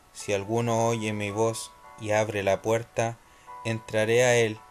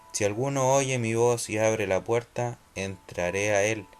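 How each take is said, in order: No difference in how they are said.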